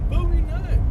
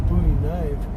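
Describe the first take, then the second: Both takes have the same delivery.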